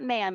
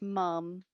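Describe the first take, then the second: First: The vowel is the open 'a' of mam. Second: The vowel is the short 'u' of mum. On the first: The speaker calls it wrong. "not ma'am" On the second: The speaker calls it right. "it's mum"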